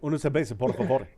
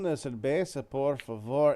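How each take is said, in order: First: It is spoken very fast, like rapid fire. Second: It is spoken slowly in a relaxed way. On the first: This is how a Puerto Rican speaker would say it. "Puerto Ricans say the same thing, ... it is just like rapid fire" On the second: This is how a Mexican speaker would say it. "like a Mexican will go, ... It's very relaxed"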